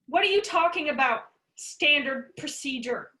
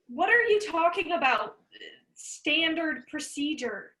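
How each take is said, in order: First: It is said with a tough-guy attitude. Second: It is said without a tough attitude.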